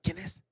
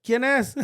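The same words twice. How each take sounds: First: Hushed question; soft, under-the-voice query; mom asking quietly. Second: Higher, fuller-voiced question; kid relaying question. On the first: Retold or imitated. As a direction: imitate mom discreetly checking who it is. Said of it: "my mom would used to be like". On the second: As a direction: imitate a kid passing the question on. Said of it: "I was like".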